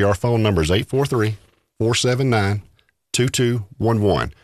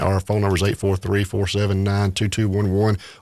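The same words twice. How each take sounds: First: The number is read more slowly. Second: The number is read at normal speed.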